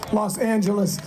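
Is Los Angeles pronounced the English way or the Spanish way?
English. It is said with an English pronunciation.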